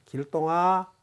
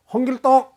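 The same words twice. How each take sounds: First: Gentle call with a drawn-out 길동아; relaxed, kindly call at an easy pitch; soft name-calling. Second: Loud, high full-name call; curt, raised-voice summons; harsh name-calling. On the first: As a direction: call the first name softly, lengthening the end. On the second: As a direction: call out 홍길동 sharply and loudly. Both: Shown as a demonstration. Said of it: "하는 것이 부드럽습니다".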